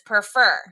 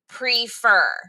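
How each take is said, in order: First: The first syllable has a weak, short vowel. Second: The first syllable has a long E sound. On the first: "some people might pronounce it as prefer" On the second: "I say prefer"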